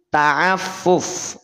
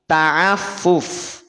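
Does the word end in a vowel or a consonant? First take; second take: consonant; consonant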